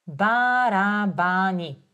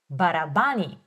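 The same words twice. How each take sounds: First: "Барабани" slowed, each syllable even; slow model word; slow and careful. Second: Said in the usual way. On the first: Shown as a demonstration. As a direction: say it slowly for the learner. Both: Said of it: "focusing on my pronunciation".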